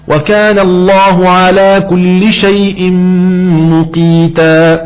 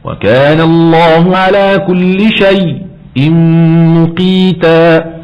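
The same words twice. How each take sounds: First: Shay' flows on without any stop. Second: There is a brief silent stop in shay'. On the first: "والترك" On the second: "السكت"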